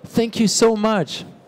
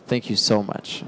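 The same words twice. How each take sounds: First: It sounds warm and sincerely grateful. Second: It sounds ironic and sarcastically grateful. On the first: Real gratitude is expressed. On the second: The opposite of gratitude is meant.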